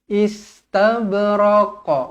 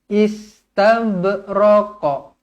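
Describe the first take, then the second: The two takes are said the same way.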